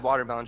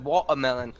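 First: Said in the usual way. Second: "Watermelon" with the t and r dropped, "waw-a-melon"; odd pronunciation imitated. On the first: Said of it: "she said". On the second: Friend imitating someone's weird watermelon, mimicking. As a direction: swallow the middle of "Watermelon" into a gap. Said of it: "weird ways of saying some things".

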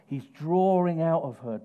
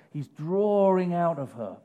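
Both takes have the same delivery.

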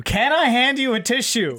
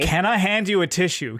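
First: Much higher, louder incredulous repeat; exasperated. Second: Said in the usual way. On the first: Real, not acted. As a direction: throw the question back in disbelief.

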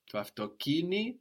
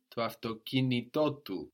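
First: To autokini stressed on ki, voice higher; first of two accents. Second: To autokinitotu with accents on ki and on to; two stresses in one word; both accents. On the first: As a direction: lift the ki of To autokini. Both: Shown as a demonstration. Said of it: "we need to hear both".

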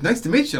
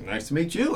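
First: High, louder Southern caller; raised Southern voice, retold; Southern accent. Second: Said in the usual way. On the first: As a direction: imitate a Southern fan greeting someone. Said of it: "he's got this great Southern accent". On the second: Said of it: "I'm like".

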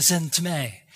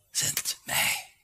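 First: Said in the usual way. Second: Breathy whisper, barely voiced; softly whispered Zend mij; whispered answer. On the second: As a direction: whisper it as a humble offer. Isaiah answers God.

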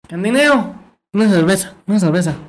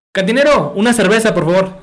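First: High nasal bar customer; gangoso. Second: High, loud clear call without nasality; ordinary customer. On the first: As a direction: order through the nose, consonants mushy and pitch raised. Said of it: "Y llega un gangoso". (cliente gangoso con voz aguda) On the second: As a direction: call out the order clearly, pitched up. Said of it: "llega a un lado". (cliente normal llamando al cantinero, voz clara) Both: Acted.

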